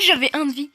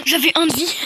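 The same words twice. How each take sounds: First: Laughing through the words, still loud. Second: Loud, high cry of disbelief; exclaiming in disbelief. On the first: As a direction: laugh as you repeat it. Repeats it, laughing. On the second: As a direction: shout it out, stunned. Lost with one health point. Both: Real, not acted.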